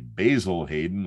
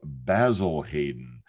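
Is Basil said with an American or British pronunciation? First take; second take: American; British. First: Basil is said with an American pronunciation. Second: Basil is said with a British pronunciation. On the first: "like I hear bartenders and bourbon fans say" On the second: "proper British pronunciation"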